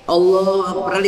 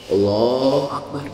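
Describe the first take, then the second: First: Said in the usual way. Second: Low, slow, drawn-out Allahu Akbar in a mocking voice; mock effeminate takbir. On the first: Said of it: "Ada begitu sekarang takbirnya". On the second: Shown as a demonstration. Preacher mocks men's effeminate takbir, slow and low. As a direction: drag out Allahu Akbar to mock men who pray like women. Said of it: "sekarang ada yang laki-laki begitu".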